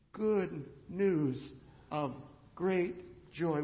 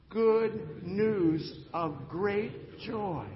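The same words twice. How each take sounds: First: Said in the usual way. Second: Very slow, louder, leading the room; drawn-out call to repeat. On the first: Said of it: "You can say this with Linus and with me". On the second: Shown as a demonstration. Pastor leads the congregation in repeating, drawn out. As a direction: stretch every word for the crowd to follow. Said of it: "Would you say that with me?".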